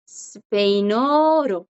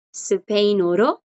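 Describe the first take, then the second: First: 스페인어로 con vocales alargadas; pronunciación pausada. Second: Said in the usual way. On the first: Shown as a demonstration. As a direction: alarga 스페인어로 para que lo repitan. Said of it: "En español". (스페인어로 lento, de profesora) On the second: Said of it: "en español".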